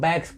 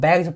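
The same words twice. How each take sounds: First: The word ends with an s sound. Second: The word ends with a z sound. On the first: The speaker calls it wrong. "वो गलत है" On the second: The speaker calls it right. "यहाँ पे आपको बैग्स पढ़ना है"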